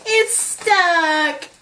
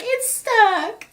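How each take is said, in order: First: A squeaky put-on voice, a bit higher; mock stuck complaint. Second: Much higher squeaky put-on voice; Hazel stuck, squeaky. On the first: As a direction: play Hazel stuck in her shirt. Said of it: "I'm like". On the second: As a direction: whine it like she's stuck in the shirt. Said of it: "she's just like".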